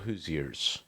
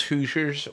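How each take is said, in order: First: "Hoosiers" drawn into three syllables, HOO-zee-ers; "Hoosiers" split up as HOO-zee-ers; alternative pronunciation. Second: "Hoosiers" as two syllables, HOO-zhers; "Hoosiers" run together as HOO-zhers; first pronunciation. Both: Shown as a demonstration. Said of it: "Is it pronounced Hoosiers or Hoosiers".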